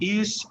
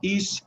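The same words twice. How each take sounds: First: The word ends with a hissing s sound. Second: The word ends with a hissing s sound.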